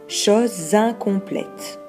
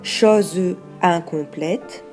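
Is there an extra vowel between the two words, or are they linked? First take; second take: linked; extra vowel. First: The two words run together without an extra vowel. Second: An extra e sound separates the two words. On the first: The speaker calls it right. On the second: The speaker calls it wrong.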